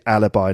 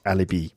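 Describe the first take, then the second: First: The word is pronounced the English way. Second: The word is pronounced the French way. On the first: The speaker calls it right. "in English, yet, we pronounce it alibi" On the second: The speaker calls it wrong. "not alibi"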